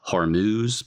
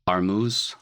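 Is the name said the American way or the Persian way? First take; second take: American; Persian. First: The name is said with an American-style pronunciation. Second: The name is said with a Persian-style pronunciation. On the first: "As an American, I you could say" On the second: "I think that might be the way it's pronounced in Persian"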